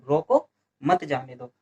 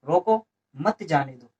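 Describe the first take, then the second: First: There is a pause right after 'roko'. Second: There is a pause right after 'roko'.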